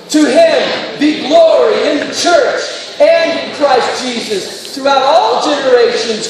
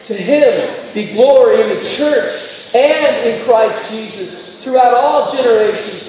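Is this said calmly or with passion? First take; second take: with passion; calmly. First: It is said with strong energy and passion. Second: It is said in a calmer, plainer way.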